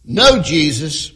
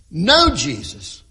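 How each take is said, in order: First: Slow, louder punch on "no"; stress on no. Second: Slow, weighty "no" before Jesus; stress on no. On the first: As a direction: hit "no" hard and slow before Jesus. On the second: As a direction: dwell on "no" so it sounds like know. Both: Shown as a demonstration. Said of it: "Emphasis on the word no".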